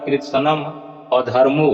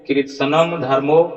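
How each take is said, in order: First: An 'a' vowel is heard before 'dharmo'. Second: No vowel is heard before 'dharmo'. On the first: The speaker calls it right. "यहाँ पर उच्चारण होगा कृत्सनम अधर्मो" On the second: The speaker calls it wrong. "ऐसा उच्चारण नहीं होगा"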